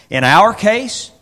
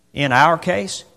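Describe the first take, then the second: First: "our" drawn out, higher and louder; emphatic slow "In our case"; stressed OUR. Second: Said in the usual way. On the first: Shown as a demonstration. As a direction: lean hard on "our" slowly.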